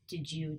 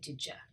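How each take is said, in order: First: The second word is a full 'you'. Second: The second word is reduced to 'ya'.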